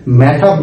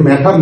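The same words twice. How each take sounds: First: "ম্যাটার" with the r heard at the end; final r sounded. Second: "ম্যাটার" ending in an open ah, no r; British silent r. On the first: Teacher shows the form to avoid, final r sounded. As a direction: close "ম্যাটার" on a clear r. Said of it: "ম্যাটার না বলে". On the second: Teacher shows the British way instead, silent final r. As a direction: drop the r closing "ম্যাটার". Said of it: "আমরা বলছি ম্যাটার". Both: Shown as a demonstration.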